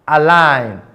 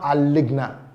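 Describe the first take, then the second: First: The g sound is silent in the word. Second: The g sound is pronounced before the ending. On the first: The speaker calls it right. "the sound G is always silent" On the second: The speaker calls it wrong. "not aligna"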